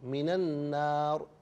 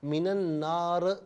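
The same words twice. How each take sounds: First: The final r ends bare with no vowel. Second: The final r is followed by a vowel. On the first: The speaker calls it right. "रॉ साकिन है तो रॉ पर हरकत नहीं देंगे" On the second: The speaker calls it wrong. "नहीं"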